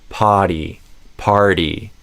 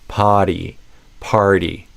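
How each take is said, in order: No difference in how they are said.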